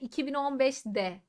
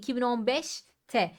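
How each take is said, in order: First: The suffix starts with a voiced d sound. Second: The suffix starts with a voiceless t sound. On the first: The speaker calls it wrong. "2015'de değil. Zaten söylerken zorlanıyorum" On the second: The speaker calls it right. "Nedir o? 5T'dir"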